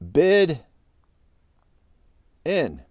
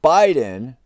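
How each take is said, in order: First: The first syllable sounds like the word bid. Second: The first syllable does not sound like bid. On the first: This may be the true way to say the name. "What if Joe Biden's name is really bid in?" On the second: This is the usual way the name is said. "Not Biden"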